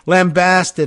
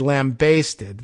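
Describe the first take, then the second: First: The second syllable has a flat 'a' vowel. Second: The second syllable rhymes with 'taste'. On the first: "the flat-sounding and American, and English, I think, preferred pronunciation" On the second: "like you're basting a lamb that's baking in the oven"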